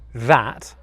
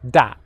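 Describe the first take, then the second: First: It begins with a soft th sound. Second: It begins with a hard d sound. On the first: The speaker calls it right. "instead of people saying um, that" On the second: The speaker calls it wrong. "they'll say dat ... you're saying da, the D sound"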